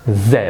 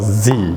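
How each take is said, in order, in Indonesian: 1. Huruf Z diucapkan sebagai zed. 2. Huruf Z diucapkan sebagai zee. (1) "Z digunakan dalam bahasa Inggris British" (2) "Z digunakan dalam American English"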